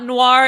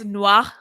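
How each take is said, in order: First: The final R is strong, English-style. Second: The final R is soft and barely sounded. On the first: The speaker calls it wrong. "it's not Noir" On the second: The speaker calls it right. "it's Noir"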